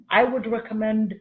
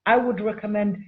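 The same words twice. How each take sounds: The two takes are said the same way.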